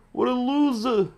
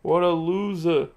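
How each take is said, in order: First: Much higher, put-on sneer; a taunting falsetto loser; high mocking voice. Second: Said in the usual way. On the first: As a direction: jeer it in a squeaky mock voice. Mocking a player in game.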